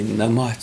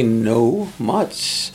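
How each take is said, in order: First: Put-on "na much" in the old unshortened form; old Cree pronunciation. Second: "no much" as the clipped modern Cree form; shortened modern pronunciation. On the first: Cree speaker quoting grandfather's old way, old pronunciation. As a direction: say "na much" with an open "na", as the elders do. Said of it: "my grandfather would say". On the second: Cree speaker showing today's shortened words, modern pronunciation. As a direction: say "no much" as two short beats. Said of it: "when they say". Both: Shown as a demonstration.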